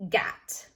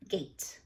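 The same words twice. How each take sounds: First: Gat with a short a as in cat. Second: Gate with long ay. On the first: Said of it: "If we didn't put the E". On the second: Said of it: "I heard a long A". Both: Shown as a demonstration.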